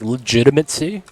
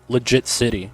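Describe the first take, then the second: First: The full word is said with all syllables. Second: The word is said as two words, legit city. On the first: The speaker calls it right. "butchering another word" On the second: The speaker calls it wrong. "I said legit city"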